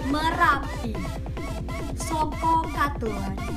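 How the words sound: The voice is full, from the chest or belly. The speaker calls it right. "Nah suaranya begitu"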